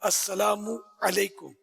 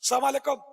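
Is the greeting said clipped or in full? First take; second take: full; clipped. First: The greeting is said in full, every syllable pronounced. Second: The greeting is clipped, dropping its opening syllables. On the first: The speaker calls it right. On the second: The speaker calls it wrong.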